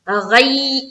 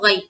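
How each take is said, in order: First: The word is said harshly, not softly. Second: The word is said softly and quickly. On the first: The speaker calls it wrong. "ऐसा नहीं करना" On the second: The speaker calls it right. "नर्म आवाज के साथ पढ़ेंगे"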